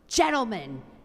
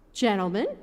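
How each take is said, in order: First: The voice is harsh and bitter. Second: The voice is somewhat less harsh.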